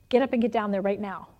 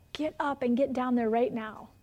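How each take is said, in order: First: Said in the usual way. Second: Measured, deliberate repeat of a command. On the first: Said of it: "the Holy Spirit said". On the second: Retold or imitated. Spirit repeats order after her objection.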